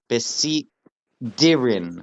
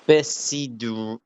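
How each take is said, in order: First: The d sound is emphasized and strengthened. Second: The d sound is plain and unemphasized. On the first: The speaker calls it right. "accurately with the dagesh" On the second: The speaker calls it wrong. "how I was pronounced it originally wrong"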